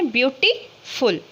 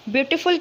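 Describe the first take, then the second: First: beautiful split slowly into "beauty", pause, "फुल"; broken into syllables. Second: Said in the usual way. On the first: Shown as a demonstration. Teacher showing students the syllables, beautiful broken before "फुल". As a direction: say beautiful in two parts, a clear gap before "फुल". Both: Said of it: "इसको हम तोड़ के बोल सकते हैं".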